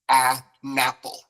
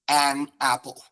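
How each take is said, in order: First: The n is joined onto apple. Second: The n stays separate from apple. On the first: The speaker calls it right. "you put it at the beginning of apple" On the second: The speaker calls it wrong. "we don't say um"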